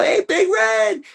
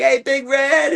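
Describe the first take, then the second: First: Very high, slow, stretched shout; big call out. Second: High, bright call across the field. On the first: Surprising Big Red from the tall grass, a very high drawn-out yell. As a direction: pop up and yell his name, drawn out. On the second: Calling to Big Red from the car, a high call. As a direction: hail the bull from the car, much higher. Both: Retold or imitated.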